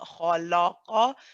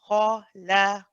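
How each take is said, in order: First: The l sound is heavy and dark. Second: The l sound is light and clear. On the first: The speaker calls it wrong. "your lam is heavy, and that is not correct in this case" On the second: The speaker calls it right. "You want to move from a heavy kha to a light lam"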